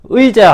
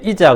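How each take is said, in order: First: The first vowel is the diphthong ui. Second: The first vowel is a plain i. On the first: The speaker calls it right. "의자 하라 그러면" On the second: The speaker calls it wrong. "이자 그래요"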